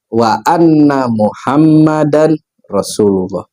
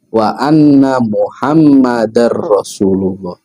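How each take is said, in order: First: The n is kept, split from the r. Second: The n merges into the following r sound. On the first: The speaker calls it wrong. "karena biasa dipecah-pecah gitu bacanya" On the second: The speaker calls it right. "maka dibacanya harus"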